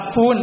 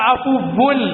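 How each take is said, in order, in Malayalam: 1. ദീർഘ ഊ സ്വരം, വ ശബ്ദമില്ല. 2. ഹ്രസ്വ ഉ, പിന്നാലെ ഇരട്ട വ. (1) "ചില ആളുകൾ അഫൂൻ എന്ന് പറയാറുണ്ട്, അങ്ങനെയല്ല" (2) "വാവിന് സുക്കു ഷദ് വേണം"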